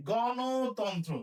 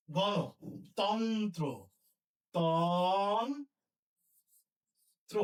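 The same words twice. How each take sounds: First: গণতন্ত্র stretched out very slowly; teacher dictating slowly; slow dictation. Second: গণতন্ত্র drawn out slowly; slow dictation. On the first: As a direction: draw out গণতন্ত্র syllable by syllable for writing. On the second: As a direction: stretch out গণতন্ত্র word by word. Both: Shown as a demonstration. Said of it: "কি লিখবো?".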